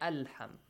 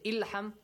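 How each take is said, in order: First: The word begins with an a vowel. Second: The word begins with an i vowel. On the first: The speaker calls it right. "you say alham" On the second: The speaker calls it wrong. "you don't say ilham"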